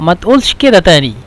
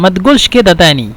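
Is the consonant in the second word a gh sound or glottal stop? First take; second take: glottal stop; gh sound. First: The qaf is said as a glottal stop. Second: The qaf is said as a gh sound. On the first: "لو نستخدم همزة" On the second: "لو نتكلم بالغين"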